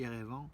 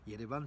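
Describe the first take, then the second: First: The name begins directly with a vowel sound. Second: The name begins with a y sound. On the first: This is the established official form used in French. The speaker calls it wrong. "quand on dit Erevan, c'est pas tellement arménien" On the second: This is the true Armenian form of the name. The speaker calls it right. "le vrai nom ... c'est avec un Y, c'est Yerevan"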